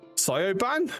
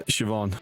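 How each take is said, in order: First: The name is sounded out as it is spelled. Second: The name is said in its usual spoken form. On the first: The speaker calls it wrong. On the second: The speaker calls it right.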